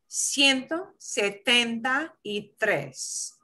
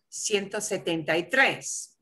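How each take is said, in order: First: It is said slowly and carefully. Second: It is said at a normal, quicker speed.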